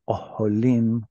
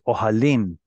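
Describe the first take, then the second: First: The second vowel is pronounced as o. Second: The second vowel is pronounced as a. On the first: The speaker calls it wrong. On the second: The speaker calls it right. "it becomes ohalim"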